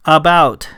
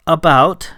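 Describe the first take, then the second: First: "About" stated with a closing fall; word given to repeat. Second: "About" with a rise at the end; tentative repeat. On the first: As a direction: give "About" as a prompt, pitch dropping. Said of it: "he said again". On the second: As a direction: echo "About" back, pitch lifting. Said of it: "she repeated". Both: A narrator's reading.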